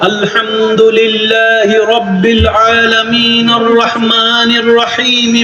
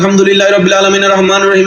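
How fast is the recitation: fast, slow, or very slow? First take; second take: very slow; fast. First: The words are recited very slowly. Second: The words are recited very quickly. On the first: "আরেকটু slow slow করে পড়লে" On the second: "তারাবির হাফেজদের জবানের মধ্যে শোনা যায়"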